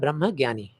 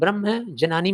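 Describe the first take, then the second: First: The word begins with a gy sound. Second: The word begins with a separate j and n.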